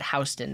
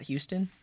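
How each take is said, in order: First: The first syllable sounds like 'house'. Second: The first syllable sounds like 'hue'. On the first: This is how the New York street name is said. The speaker calls it right. "but you pronounce it Houston" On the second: This is how the Texas city name is said. The speaker calls it wrong. "not Houston"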